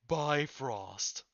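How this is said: It is said with an American pronunciation. The speaker calls it wrong.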